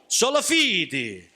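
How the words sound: It is said in a Godfather gangster voice.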